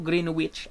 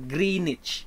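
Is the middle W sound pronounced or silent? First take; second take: pronounced; silent. First: The W in the middle is pronounced. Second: The W in the middle is silent. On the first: The speaker calls it wrong. "Hindi po Greenwich" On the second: The speaker calls it right. "you pronounce that one with the silent W"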